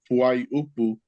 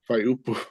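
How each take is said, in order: First: The word is said in full, every vowel sounded. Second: The word is shortened, one vowel dropped. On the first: This is the formal, correct pronunciation. "actually pronounced Fuai Upu" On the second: This is how people say it every day. "Everyone just says Fai Upu"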